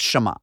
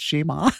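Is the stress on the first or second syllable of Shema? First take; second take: first; second. First: The stress is on the first syllable. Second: The stress is on the second syllable. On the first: The speaker calls it wrong. "pronounces it Shema with a long E and accent on the first syllable" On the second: The speaker calls it right. "No, actually, it's Shema"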